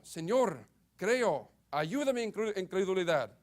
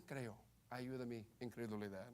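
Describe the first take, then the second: First: Fervent, raised plea; crying out in scripture. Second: Much softer and lower; hushed, low reading without fervour; bare, understated reading. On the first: A narrator's reading. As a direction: read it as an urgent cry for help. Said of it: "clamando con lágrimas". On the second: Shown as a demonstration. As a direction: drop the plea to a quiet, subdued quote. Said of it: "Dice solamente".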